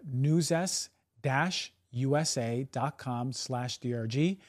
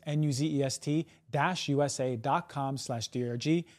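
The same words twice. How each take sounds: First: Slow web address. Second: N U Z E S T spelled out one letter at a time; each letter of N U Z E S T said clearly apart. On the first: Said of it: "That's Nuzest, N U Z E S T". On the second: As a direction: spell Nuzest out as single letters for the listener. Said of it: "That's Nuzest". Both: Shown as a demonstration.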